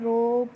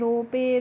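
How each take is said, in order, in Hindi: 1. इस शब्द के अंत में कोई स्वर नहीं है। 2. अंतिम e को एक स्वर की तरह बोला जाता है। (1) "कैसे पढ़ना है" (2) "इस तरीके से नहीं पढ़ना है"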